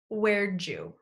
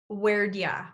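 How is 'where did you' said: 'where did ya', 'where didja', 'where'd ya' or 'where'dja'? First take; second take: where'dja; where'd ya. First: It is said as 'where'dja', with 'did' reduced to 'd' and linked into 'you'. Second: It is said as 'where'd ya', with 'did' reduced to 'd' and 'you' to 'ya'. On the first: "the fourth variation is where'd you?" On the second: "the third way we're going to link and reduce where did. Where'd"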